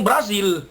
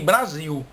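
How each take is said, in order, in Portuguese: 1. O L final é pronunciado como um L claro. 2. O L final é pronunciado como U. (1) "que é como a gente devia pronunciar" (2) "nós chamamos o nosso país"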